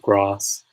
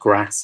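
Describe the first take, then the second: First: It is said with a Southern English vowel. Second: It is said with a Northern English vowel. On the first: "instead of" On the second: "I have Northern English pronunciation. So so I say things like grass"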